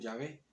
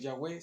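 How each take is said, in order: First: The middle consonant is a v sound. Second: The middle consonant is a w sound. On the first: The speaker calls it right. "sino Yahvé" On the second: The speaker calls it wrong. "lo correcto no es Yahweh"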